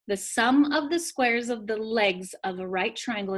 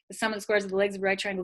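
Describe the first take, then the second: First: It is said slowly and carefully. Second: It is said very quickly. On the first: "I'm gonna say that one more time. You guys get it written down" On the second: "You can say it really fast and try to sound smart"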